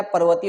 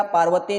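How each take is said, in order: First: पर्वतीय with a short "par"; पर्वतीय opening on a short A; correct short A. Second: पार्वतीय with a long "paar"; पार्वतीय opening on a lengthened A; wrong long A. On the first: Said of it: "पर्वतीय होता है". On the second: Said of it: "पार्वतीय नहीं होता है". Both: Shown as a demonstration.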